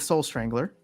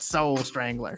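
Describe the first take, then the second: First: It is said in a plain, ordinary voice. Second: It is said like a booming monster truck announcer.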